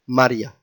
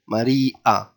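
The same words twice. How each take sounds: First: The marked letter is not a separate syllable. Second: The marked letter is a separate syllable. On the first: The letter has no syllable mark. "If there wasn't, it would have been Maria" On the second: The letter carries a syllable mark. "But with the Jenkim here, it's Maria"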